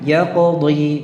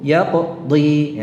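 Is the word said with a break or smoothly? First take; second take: smoothly; break. First: The sounds run straight on without any break. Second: A short break cuts the letter from the next. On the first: The speaker calls it right. "Harusnya kan langsung ya qadhi. Itu itu yang benar. Ya qadhi itu cukup" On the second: The speaker calls it wrong. "Tidak perlu ya qadhi. Ya, jadi ada semacam jedanya"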